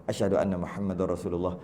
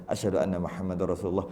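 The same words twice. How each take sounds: No difference in how they are said.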